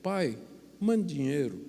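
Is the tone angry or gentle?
gentle. It is read in a soft, pleading tone.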